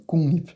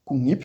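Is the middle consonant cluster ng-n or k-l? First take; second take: ng-n; ng-n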